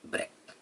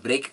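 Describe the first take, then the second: First: "ब्रेक" as BREK, short open e; short e and a sharp k in "ब्रेक"; short-vowel brek. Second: "ब्रेक" as BRAYK, with a gliding vowel; long-vowel break. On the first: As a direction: say "ब्रेक" clipped, rhyming with neck. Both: Shown as a demonstration. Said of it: "आप दोनों try करें".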